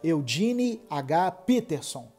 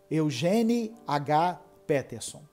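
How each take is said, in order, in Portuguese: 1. O nome é dito com sons ingleses. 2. O nome é dito com sons portugueses. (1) "Talvez seja" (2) "se eu fosse ler isso aqui na língua portuguesa, seria"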